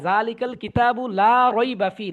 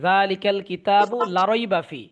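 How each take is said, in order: First: The vowel in 'la' is held long. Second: The vowel in 'la' is cut short. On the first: The speaker calls it right. "লা এখানে একালিফ টান আছে" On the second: The speaker calls it wrong. "টান দেয় না, এইভাবে পড়ে"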